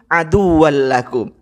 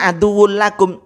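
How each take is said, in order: First: The first word ends with an 'al' sound. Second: The first word ends with an 'ul' sound. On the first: The speaker calls it wrong. "masih salah loh" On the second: The speaker calls it right. "seharusnya aduwul lakum"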